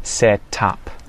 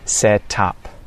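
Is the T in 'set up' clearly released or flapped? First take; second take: released; released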